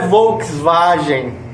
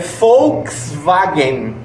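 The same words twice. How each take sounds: First: The word begins with a V sound. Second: The word begins with an F sound. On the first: The speaker calls it wrong. "não é Volkswagen" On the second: The speaker calls it right. "é Volkswagen. ... O V, que é FAL"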